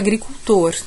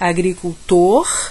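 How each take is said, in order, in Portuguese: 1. O R final tem som da cidade de São Paulo. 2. O R final tem som nordestino brasileiro. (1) "como na capital paulista" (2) "como no Nordeste"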